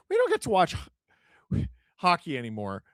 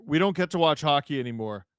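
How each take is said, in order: First: Mock whine. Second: Said in the usual way. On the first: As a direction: parody the complaint in a squeaky whine. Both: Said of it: "Steesen Schiller".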